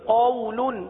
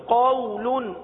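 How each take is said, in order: Both takes have the same delivery.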